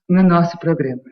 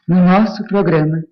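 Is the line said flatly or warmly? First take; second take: flatly; warmly. First: It is said in a plain, cool way. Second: It is said with more warmth.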